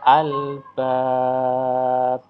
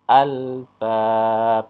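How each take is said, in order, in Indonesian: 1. Vokal panjang itu ditahan selama empat ketukan. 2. Vokal panjang itu ditahan selama dua ketukan. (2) "atau dua"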